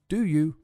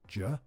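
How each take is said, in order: First: Both words are said fully and clearly. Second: The two words shrink to one very clipped syllable.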